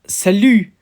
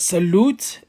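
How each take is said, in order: First: It is said with a French pronunciation. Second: It sounds like the English word salute. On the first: The speaker calls it right. "it's salut" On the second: The speaker calls it wrong. "It's not salute"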